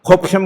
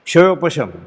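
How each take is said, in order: First: The word begins with a plain 'kh' sound. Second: The word begins with a 'ksh' cluster. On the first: The speaker calls it wrong. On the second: The speaker calls it right.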